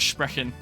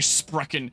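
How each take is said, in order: First: It is said with a German accent. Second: It is said with an English accent. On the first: The speaker calls it right. "instead of sprechen" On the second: The speaker calls it wrong. "I just say sprechen"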